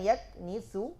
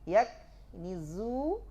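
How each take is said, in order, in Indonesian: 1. Konsonan tengah adalah bunyi s tak bersuara. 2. Konsonan tengah adalah bunyi z bersuara.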